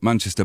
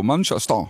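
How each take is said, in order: First: Said in the usual way. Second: Lightly imitated German accent. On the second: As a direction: say it as a German from Dusseldorf might. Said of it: "when people in Dusseldorf are talking".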